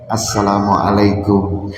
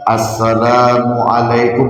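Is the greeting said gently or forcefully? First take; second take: gently; forcefully. First: The greeting is said softly and gently. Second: The greeting is said with some firm emphasis. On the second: "ada penekanan sedikit"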